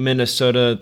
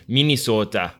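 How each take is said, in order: First: Said in the usual way. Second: Local Minnesota accent. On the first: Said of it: "you're not pronouncing Minnesota the way". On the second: Shown as a demonstration. Host teasing guest about how locals say it, mock Minnesota accent. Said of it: "people up there pronouncing that".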